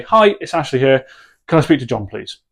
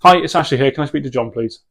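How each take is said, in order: First: Short, firm, matter-of-fact ask; direct phone request. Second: Short, firm and matter-of-fact; direct phone request. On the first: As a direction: say it and leave silence. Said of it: "And you're gonna say". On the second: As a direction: ask for John and stop dead. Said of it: "absolutely nothing else". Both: Shown as a demonstration.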